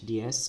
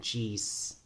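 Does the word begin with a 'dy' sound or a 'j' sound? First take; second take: dy; j. First: The word begins with a soft 'dy' glide sound. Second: The word begins with a hard 'j' sound. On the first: The speaker calls it right. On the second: The speaker calls it wrong. "because sometimes I hear people say geez"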